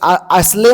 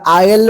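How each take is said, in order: First: The S sound is pronounced in the word. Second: The S sound is left out of the word. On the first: The speaker calls it wrong. "आसले म्हणत नाहीत" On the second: The speaker calls it right. "याला आय एल म्हणतात"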